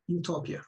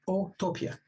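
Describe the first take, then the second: First: The word begins with a 'you' sound. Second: The word begins with an 'oh' vowel sound. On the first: It means good place. "Or you can pronounce it as utopia, and you here meaning good" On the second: It means no place. "One is Otopia, Otopia. O here, it's Latin"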